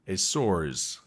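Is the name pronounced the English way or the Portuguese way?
Portuguese. The name is pronounced the Portuguese way.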